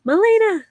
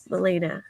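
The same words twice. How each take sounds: First: "Malena." blurted high and loud as a slip; a loud, high-pitched slip on "Malena."; wrong name, high and loud. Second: Said in the usual way. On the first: Shown as a demonstration. Reading chat names aloud, blurts "Malena." high and loud. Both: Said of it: "I did it again".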